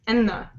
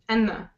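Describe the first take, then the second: The two takes are said the same way.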